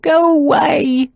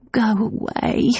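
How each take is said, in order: First: Desperate plea. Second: Slow, soft, higher moan; weak moan. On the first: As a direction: push her away, pleading. Repeated, more desperate. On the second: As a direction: moan it out, too sick to push. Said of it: "Nan moaned". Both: A narrator's reading.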